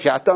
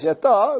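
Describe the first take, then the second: First: The stress is on the first syllable. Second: The stress is on the last syllable. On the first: This is the usual form of the word. "צריך שאתו מלעיל" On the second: The stress shifts because a guttural letter follows. "למה פה יוצא מלכר שאתו"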